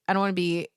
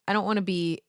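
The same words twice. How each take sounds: The two takes are said the same way.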